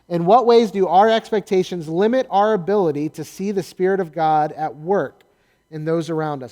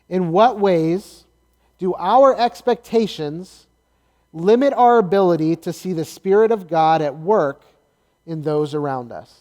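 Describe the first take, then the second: First: The question is read at a quick pace. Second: The question is read at a slower pace. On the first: The speaker calls it wrong. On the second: The speaker calls it right.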